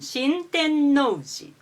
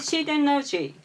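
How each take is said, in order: First: The n is held for a full beat. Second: The n is clipped short, almost dropped. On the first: The speaker calls it right. "Shinten-no-uji is the correct pronunciation" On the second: The speaker calls it wrong. "most Japanese people catch it as Shiten-no-ji"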